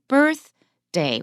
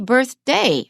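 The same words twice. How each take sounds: First: The stress is on the first syllable. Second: The stress is on the second syllable. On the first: The speaker calls it right. "we stress the first syllable" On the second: The speaker calls it wrong. "We don't say birthday. Nobody would say that"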